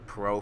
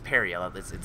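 First: The name is said as one short syllable. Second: The name is said with several syllables. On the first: The speaker calls it wrong. "me saying pro for so long" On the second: The speaker calls it right. "That's the French pronunciation for it"

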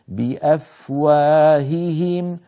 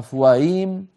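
First: Both h sounds are pronounced separately. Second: The two h sounds merge into one. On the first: The speaker calls it right. "انظر إلى توالي الهائين" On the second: The speaker calls it wrong. "اسمعوا أفواهيم"

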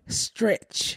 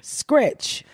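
First: The word begins with an st sound. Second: The word begins with an sk sound. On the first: The speaker calls it right. "There you go" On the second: The speaker calls it wrong. "No, there's it's a T, not a K"

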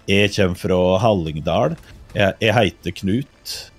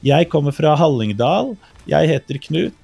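First: It is said in the Hallingdal dialect. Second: It is said in standard bokmål.

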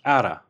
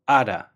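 First: The words blend into one reduced form. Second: The words blend into one reduced form.

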